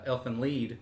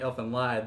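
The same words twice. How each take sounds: First: "Lied" said with a long E, rhyming with need; Lied as "leed". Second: "Lied" said with a long I, rhyming with ride; Lied as "lide". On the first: Real, not acted. Co-host adopting the corrected title, "Lied" as "leed". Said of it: "I've heard it pronounced Lead". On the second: Shown as a demonstration. Co-host admitting his usual reading, "Lied" as "lide". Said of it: "I've been calling it".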